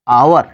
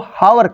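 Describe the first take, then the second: First: The word starts with a vowel, no h sound. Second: The word starts with an audible h sound. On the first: The speaker calls it right. "Silent है" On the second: The speaker calls it wrong. "अधिकांश लोग इसको हावर कहते हैं"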